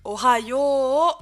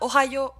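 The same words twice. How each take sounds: First: The 'yo' vowel is lengthened. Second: The 'yo' vowel is short. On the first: The speaker calls it right. "on va allonger le yo avec un U" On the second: The speaker calls it wrong. "on dit pas Ohio"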